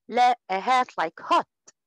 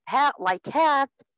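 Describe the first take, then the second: First: هات very slow with the back o of hot. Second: ها very slow with the open a of hat. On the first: Teacher corrects toward the h of hot for a student. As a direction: stretch هات like hot, rounded back vowel. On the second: Teacher models the h of hat for a foreign student. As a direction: draw out ها like hat, front vowel. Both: Shown as a demonstration. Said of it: "أقول للطالب أو الطالب الأعجمي".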